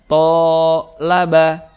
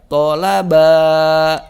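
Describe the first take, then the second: First: The first syllable's vowel is long. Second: The third syllable's vowel is long. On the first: "maka to-nya menjadi panjang" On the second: "maka ba-nya yang panjang"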